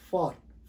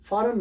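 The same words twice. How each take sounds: First: "फॉरेन" as a single syllable, faarn; no vowel between r and n in फॉरेन; correct pronunciation. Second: "फॉरेन" in two syllables, FAA-run; wrong pronunciation. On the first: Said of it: "क्या पढ़ते हैं". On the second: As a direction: put a vowel before the n of फॉरेन. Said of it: "फॉरेन नहीं". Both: Shown as a demonstration.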